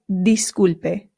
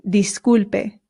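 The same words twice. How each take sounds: No difference in how they are said.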